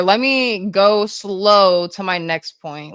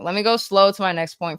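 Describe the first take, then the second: First: Slow, stretched-out delivery; deliberately slowed down. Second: Said in the usual way. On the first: Shown as a demonstration. Streamer obeying chat's request to slow down, deliberately slow. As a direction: draw it out, lingering on the words. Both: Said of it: "I need to slow down".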